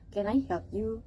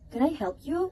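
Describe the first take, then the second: First: Said in the usual way. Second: "Can I help you?" pitched high, rising clearly on "you"; "Can I help you?" with a strong rising tune; clear rising question. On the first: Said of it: "instead of". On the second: Shown as a demonstration.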